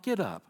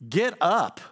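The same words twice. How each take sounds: First: It is said softly and gently. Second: It is said sharply and forcefully. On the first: A mild, sympathetic nudge. The speaker calls it wrong. "I don't think he said it like that" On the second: A stern rebuke to stop wallowing. The speaker calls it right. "I think he said it like"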